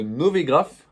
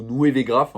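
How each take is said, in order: First: "Novegraph" with a single "o" vowel after the N; "Novegraph" read slowly as "No-vé-graph"; first pronunciation. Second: "Nuevegraph" with a glide after the N; "Nuevegraph" offered as another reading, "Nou-é-vé-graph"; alternative pronunciation. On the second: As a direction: say "Nuevegraph", opening on "Nué" rather than "No". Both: Shown as a demonstration. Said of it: "je sais pas comment vous le prononcez".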